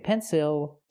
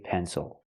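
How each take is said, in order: First: The second syllable has a clear 'ill' vowel. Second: The second syllable has a relaxed 'ul' sound. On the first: The speaker calls it wrong. "Don't say pencil" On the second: The speaker calls it right. "say pencil. ... it's pronounced O"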